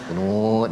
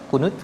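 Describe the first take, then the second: First: The vowel in the word is held long. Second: The vowel in the word is held short. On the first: "kalau kunut panjang" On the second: "itu kunut pendek"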